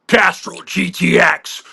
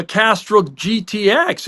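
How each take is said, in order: First: Slow, drawn-out ad announcer voice; commercial voice-over. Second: Said in the usual way. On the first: Retold or imitated. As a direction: imitate the actor's TV commercial tagline read. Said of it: "You mean this?". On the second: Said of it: "You sound like the guy from".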